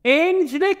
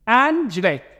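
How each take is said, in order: First: The first vowel is a long 'ay' sound. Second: The first vowel is a short 'a' sound. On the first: The speaker calls it wrong. "الحرف الايه اتنطق زي اسمه ايه" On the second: The speaker calls it right. "اتغير صوت حرف الايه"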